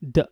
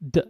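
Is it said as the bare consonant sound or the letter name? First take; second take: consonant sound; consonant sound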